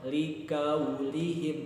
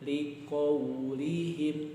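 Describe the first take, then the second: First: The consonant is a front k sound. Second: The consonant is a deep q sound. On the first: The speaker calls it wrong. "bukan liqaulihim" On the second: The speaker calls it right. "tapi liqaulihim, jadi mulutnya agak dimonyongin"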